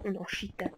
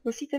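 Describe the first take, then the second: First: The middle consonant is a lisped sh sound. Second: The middle consonant is a plain s sound. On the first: The speaker calls it wrong. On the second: The speaker calls it right.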